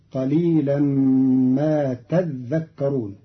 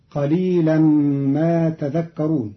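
First: تذكرون with the dhal held double; doubled dhal in تذكرون. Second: تذكرون with a single, undoubled dhal; light dhal in تذكرون. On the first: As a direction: say تذكرون as tadhdhakkarun. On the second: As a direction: say تذكرون as tadhakkarun. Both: Shown as a demonstration. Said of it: "بتشديد الذال".

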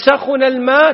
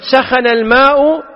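First: "سخن" said sakhuna, rounded u on the kh; "سخن الماء" as sakhuna al-ma'; بضم الخاء; damma on kha. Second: "سخن" said sakhana, open a on the kh, drawn out; "سخن الماء" as sakhana al-ma'; بفتح الخاء; fatha on kha. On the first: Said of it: "بضم الخاء". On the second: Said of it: "بفتح الخاء". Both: Shown as a demonstration.

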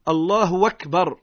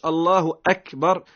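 First: "الله أكبر" said as allahu wakbar, w replaces the glottal stop; waw instead of hamza. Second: Said in the usual way. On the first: Shown as a demonstration. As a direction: join "الله" to "أكبر" with a w sound. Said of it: "بالواو". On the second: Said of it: "يعني ما يقولش".

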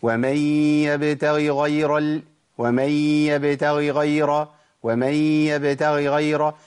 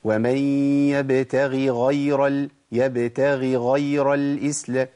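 First: Very slow يبتغي غير with the two ghains merged; run-together ghains. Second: Slow يبتغي غير with each ghain set apart clearly; separated ghains. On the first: Teacher repeating the mistake so students hear it. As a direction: drag it out, blurring يبتغي into غير. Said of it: "الخطأ هتسمعه مني دلوقتي". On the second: Teacher giving the correct recitation, deliberate. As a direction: pause lightly between يبتغي and غير. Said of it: "طب اسمع الصواب". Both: Shown as a demonstration.

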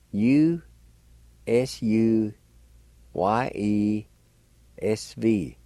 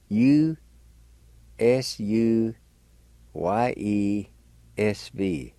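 The two takes are said the same way.

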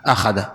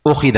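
First: أخذ said low as "akhadha"; fatha on hamza. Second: أخذ said "ukhidha"; changed first vowel. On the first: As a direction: open أخذ with an "a" sound. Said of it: "الهمزة مفتوحة". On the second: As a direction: start أخذ on "u", then "i". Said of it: "حصل تغيير هنا". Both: Shown as a demonstration.

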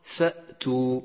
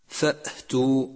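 First: فأتوا with a clean hamza, no breath; correct hamza. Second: فأتوا with breath let out after the hamza; breathy hamza. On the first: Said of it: "والصواب". (نطق فأتوا الصحيح بلا همس) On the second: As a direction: add a puff of air after the hamza in فأتوا. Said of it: "إتباعها بهمس". (همزة فأتوا متبوعة بهمس خطأ) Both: Shown as a demonstration.

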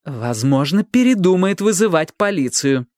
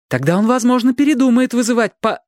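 First: Firm, distinct, raised pitch; clearly articulated, determined statement; clear and resolute. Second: High, pressing plea cut short; high urgent reasoning, broken off; urgent persuasion. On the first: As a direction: finish the sentence decisively. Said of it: "чётко и решительно закончила Робин". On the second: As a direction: urge it in a raised voice until interrupted. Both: A narrator's reading.

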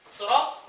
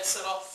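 First: صراط opening on an emphatic, dark s; thick saad at the start of صراط; صراط with heavy saad. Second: صراط opening on a light, thin s like سراط; light seen at the start of صراط. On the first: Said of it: "الصاد دي قراءة حفص". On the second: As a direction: say صراط slowly with a plain س. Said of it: "صراط دي قراءة صحيحة". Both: Shown as a demonstration.

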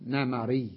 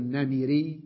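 First: نمري said "na-ma-REE", short a after the m; the correct form of نمري, with a in the middle; fatha on the mim. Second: نمري said "na-mi-REE", short i after the m; the rejected form of نمري, with i in the middle; kasra on the mim. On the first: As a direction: say نمري as namarī, the kasra turned to fatha. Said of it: "نجعل حركتها التي هي كسرة فتحة". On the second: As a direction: say نمري as namirī, keeping the kasra. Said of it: "لا نقول نمري". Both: Shown as a demonstration.

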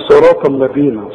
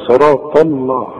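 First: "الذين" with thin l after heavy ṭa; light lam. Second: "الله" with a thick, dark l; wrong heavy lam. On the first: Shown as a demonstration. Teacher contrasts with the mistake, light l in "الذين". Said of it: "إنما عدا ذلك مرققة". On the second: Retold or imitated. Teacher repeats the mistake, thick dark l in "الله". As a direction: mimic the error, heavy l after "صراط". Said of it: "في غلط هنا".

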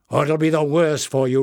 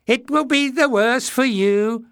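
First: Loud angry threat on worse; roar. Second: High, loud, mocking squeaky echo; mocking mimicry. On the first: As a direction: bark out the threat. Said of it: "roared Bada". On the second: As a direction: throw his words back in a silly high voice. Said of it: "mimicked one". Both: A narrator's reading.

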